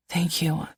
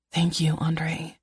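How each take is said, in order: First: A soft, weak thank you; barely getting the words out, drained; said weakly. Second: Slow, soft whisper; whispered thanks. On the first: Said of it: "I say weakly". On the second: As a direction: breathe the thanks slowly and quietly. Grateful after morning sickness. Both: A narrator's reading.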